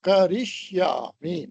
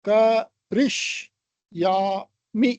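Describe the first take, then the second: First: The syllables run together without gaps. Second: Each syllable is said separately with gaps. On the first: "செலபலுக்கு நடுவுல கேப்பை குறைச்சி" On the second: "செலபல் செலபலா"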